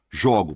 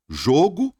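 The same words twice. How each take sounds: First: "jogo" said with an open o, as in "I throw"; the verb "jogo", open vowel; "jogo" meaning I throw, with an open o. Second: "Jogo" said with a closed o, like the noun; the noun "Jogo", closed vowel; "Jogo" as in the game, with a closed o. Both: Shown as a demonstration. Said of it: "heterofônico".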